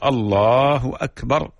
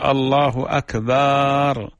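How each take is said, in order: First: The vowel after the b is short. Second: The vowel after the b is drawn out long. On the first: God is the greatest. The speaker calls it right. "التكبير القائم على الحذف بحيث يعطي كل حرف حقه" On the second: The word comes to mean a drum. The speaker calls it wrong. "يمد حرف الباء في أكبر"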